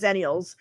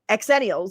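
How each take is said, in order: First: The word begins with a 'z' sound. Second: The word begins with an 'eks' sound. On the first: "instead of zennials" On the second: "I call X ennials exennials"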